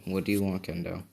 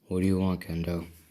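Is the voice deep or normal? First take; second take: normal; deep. First: It is said in a normal voice. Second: It is said in a deep voice.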